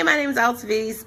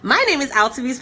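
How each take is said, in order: First: The introduction sounds hesitant and unsure. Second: The introduction sounds bold and confident. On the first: The person finds it hard to introduce themselves. "it's a struggle to get that part out" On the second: The person eagerly promotes themselves to strangers. "that engaging person"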